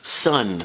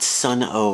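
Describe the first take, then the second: First: The name is said as one syllable. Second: The name is said with an added oh. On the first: The speaker calls it right. "It's just Sun" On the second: The speaker calls it wrong. "I used to think it was pronounced Sun O"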